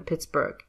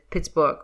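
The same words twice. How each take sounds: First: It is said with a standard English pronunciation. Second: It is said with a Russian-like pronunciation. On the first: "rather than Pittsburgh" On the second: "I went with Pittsburgh"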